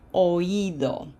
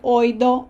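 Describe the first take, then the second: First: The stress falls on the i itself. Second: The stress falls on the vowel before i. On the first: The speaker calls it right. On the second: The speaker calls it wrong.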